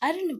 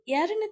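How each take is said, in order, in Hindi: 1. यह शब्द सीधे स्वर से शुरू होता है। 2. यह शब्द य की ध्वनि से शुरू होता है। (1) "अर्ण पढ़ेंगे" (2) "हम उसको यर्ण तो नहीं पढ़ेंगे"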